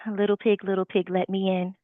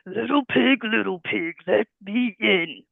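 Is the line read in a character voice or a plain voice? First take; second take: plain; character. First: It is read in a plain, ordinary voice. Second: It is read in a put-on character voice. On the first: The speaker calls it wrong. "Would you just say" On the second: The speaker calls it right. "switching the character voices"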